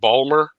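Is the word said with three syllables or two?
two. It is squeezed into two syllables, local style.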